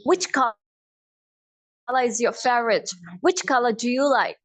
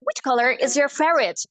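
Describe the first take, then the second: First: Slow British accent, "color" ending in "ah". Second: Slow American accent, R in "color". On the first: Teacher converts color question, British accent. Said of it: "British accent में convert करूँ". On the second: Teacher models color question, American accent. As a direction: sound every R, American. American take before British conversion. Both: Shown as a demonstration.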